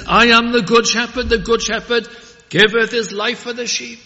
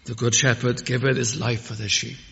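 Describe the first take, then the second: First: Loud, high ringing proclamation of "giveth"; loud pulpit proclamation; proclaimed. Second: Hushed, thoughtful recital; quiet, reflective quote. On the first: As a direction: preach "The good shepherd giveth" out full-voiced. Proclaimed loud, then repeated calmly. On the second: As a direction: draw them close with "The good shepherd giveth". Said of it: "Ah, note these words". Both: Acted.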